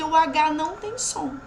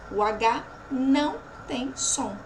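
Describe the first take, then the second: First: Said in the usual way. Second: O H NÃO TEM SOM with pauses between words; emphatic repeat. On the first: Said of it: "por que seis fonemas". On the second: Shown as a demonstration. (O H NÃO TEM SOM pausado, palavra por palavra)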